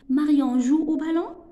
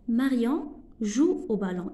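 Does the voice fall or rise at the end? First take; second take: rises; falls. First: The voice rises at the end. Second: The voice falls at the end. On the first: It is a question. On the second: It is a statement.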